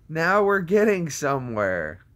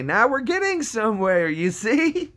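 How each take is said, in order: First: Raised voice gliding back down; milder mock triumph. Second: High squeaky voice rising as it goes; mock triumph. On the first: Streamer repeating the line to chat, milder mock triumph. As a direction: say it moderately high, then let it fall. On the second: Streamer crowing to chat about getting somewhere, high mock triumph. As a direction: shoot up high and loud in comic triumph.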